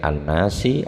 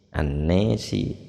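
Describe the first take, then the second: First: The long vowel is an open a sound. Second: The long vowel is tilted toward an e sound.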